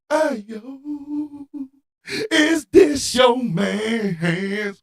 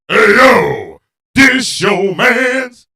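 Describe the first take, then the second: First: It is said in a soulful way. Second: It is said in a boisterous way.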